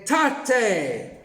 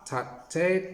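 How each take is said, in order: First: "ta te" punched out louder and higher; extra loud ta te. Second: Said in the usual way. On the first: Shown as a demonstration. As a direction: hit "ta te" hard for the red block. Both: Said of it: "then an extra loud ta te".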